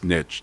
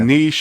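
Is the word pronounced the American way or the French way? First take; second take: American; French. First: The word is pronounced the American way. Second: The word is pronounced the French way. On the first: The speaker is American. "it's niche to us Americans" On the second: The speaker is French. "niche if you're a cheese eating surrender monkey from France"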